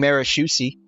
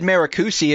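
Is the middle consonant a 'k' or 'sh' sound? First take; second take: sh; k. First: The middle consonant is a soft 'sh' sound. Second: The middle consonant is a hard 'k' sound. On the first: The speaker calls it right. "It should be sh instead of ka" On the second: The speaker calls it wrong. "I just mispronounced the C H"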